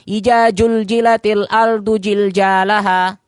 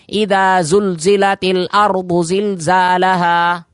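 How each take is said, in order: First: The first word has a 'j' sound instead. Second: The first word has a clear 'dh' sound. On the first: The speaker calls it wrong. "yang sekedar yang penting baca" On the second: The speaker calls it right. "imam pun harus jelas mengucapkannya"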